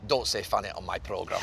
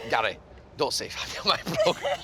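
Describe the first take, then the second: First: Low mock Scottish scold; deadpan Scottish producer telling him off, badly done; imitating a Scottish accent, lower and stern; poor Scottish accent. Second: Mock Scottish scold said through laughter, higher; retelling the producer's line while cracking up; half-laughed Scottish producer voice; laughing Scottish impression. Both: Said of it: "It's my poor Scottish accent".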